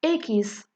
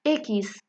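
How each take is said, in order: First: إكس in two syllables, "E-kis"; Spanish X. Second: إكس as a single syllable "iks", French-style; wrong one-syllable X. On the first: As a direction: say إكس as "EH-kees", stressing the first syllable. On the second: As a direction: say إكس as "iks", no vowel between K and S. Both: Shown as a demonstration. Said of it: "ماشي إكس".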